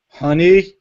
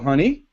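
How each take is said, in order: First: It is said in a cold, annoyed tone. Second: It is said in a relaxed, ordinary tone.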